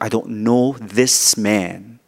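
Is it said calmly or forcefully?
forcefully. It is said forcefully, with strong emotion.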